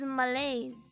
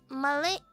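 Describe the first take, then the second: First: The word ends with a z sound. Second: The word ends on an open vowel. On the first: This is the accepted pronunciation. The speaker calls it right. "but apparently it's Malays" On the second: This is the speaker's habitual pronunciation. The speaker calls it wrong. "Malais is how I say it"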